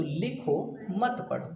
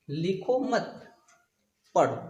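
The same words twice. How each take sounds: First: Slow "लिखो", pause, then "मत पढ़ो" together; pause after लिखो. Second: "लिखो मत" together, long pause, then "पढ़ो"; pause after मत. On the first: Teacher showing students where to stop, pausing after लिखो. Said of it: "यहाँ पे हमको थोड़ा रुकना है". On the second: Teacher showing students writing is forbidden, pausing after मत. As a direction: join लिखो to मत, break before पढ़ो. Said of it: "हमको लिखने के लिए मना किया जा रहा है". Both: Shown as a demonstration.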